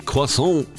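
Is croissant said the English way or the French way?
French. The word is said with a French pronunciation.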